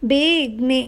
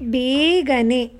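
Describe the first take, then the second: First: A middle vowel is dropped, shortening the word. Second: Every syllable is said in full. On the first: This is the everyday spoken form. "ಆಡು ಭಾಷೆ" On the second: This is the formal written form. "ಗ್ರಾಂಥಿಕ ಭಾಷೆ"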